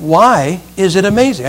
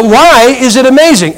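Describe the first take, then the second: First: Said in the usual way. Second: Exasperated asking again. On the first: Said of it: "Do not think that word means". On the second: Retold or imitated. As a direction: press him for an answer, losing patience. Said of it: "I said".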